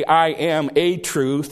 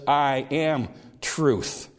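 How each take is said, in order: First: Slow "I am a truth", a touch louder; stress on a truth. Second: Very slow "I am truth", weight on "am"; slow emphatic. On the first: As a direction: lean on "a" in "a truth". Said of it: "He did not say". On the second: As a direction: draw out each word of "I am truth". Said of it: "He says". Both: Shown as a demonstration.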